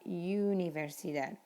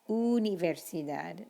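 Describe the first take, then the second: First: The first vowel is an English 'you' sound. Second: The first vowel is a pure Spanish 'oo' sound. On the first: The speaker calls it wrong. "not universidad" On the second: The speaker calls it right. "Uno, universidad, u"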